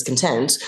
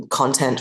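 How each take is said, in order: First: Con-TENT, second syllable stressed. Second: CON-tent, first syllable stressed. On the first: Actor telling verb from noun, "content" stressed on TENT. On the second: Actor telling noun from verb, "content" stressed on CON. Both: Shown as a demonstration. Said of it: "is where you put the stress".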